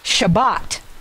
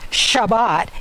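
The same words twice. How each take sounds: First: The stress is on the last syllable. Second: The stress is on the first syllable. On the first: The speaker calls it right. "In Hebrew, it's the last syllable that gets the emphasis" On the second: The speaker calls it wrong. "So it's not Shabbat"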